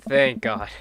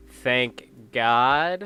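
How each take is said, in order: First: "Thank God" with THANK hit and falling; stress on thank. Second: "Thank God" with GOD stretched and rising at the end; stress on God. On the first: Minister character blurts relief at not being alone, stress on thank. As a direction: land the weight on "Thank", let "God" drop away. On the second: Minister repeats it to prove he's allowed, stress on God. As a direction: lean into "God" and lift it like a cheeky dare. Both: Acted. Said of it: "Are you allowed to say that?".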